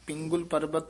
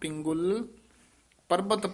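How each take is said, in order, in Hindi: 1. दोनों शब्द बिना विराम के एक साथ बोले जाते हैं। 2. पहले शब्द के बाद हल्का सा विराम आता है। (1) "ਨਹੀਂ ਕਹਿਣਾ" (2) "ਪਿੰਗੁਲ ਇਥੇ ਯਮਕ ਲੱਗ ਜਾਏਗੀ"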